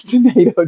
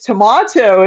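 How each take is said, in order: First: Said in the usual way. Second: "tomato" with a broad ah in the middle; different tomato pronunciation. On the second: Shown as a demonstration. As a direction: say "tomato" as to-MAH-to, a little louder. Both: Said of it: "you pronounce tomato differently".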